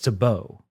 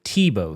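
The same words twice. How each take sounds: First: The name is pronounced the French way. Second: The name is pronounced the English way. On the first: The speaker calls it right. "It's fucking French" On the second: The speaker calls it wrong. "We always called it Tebow Street. Like Tim Tebow"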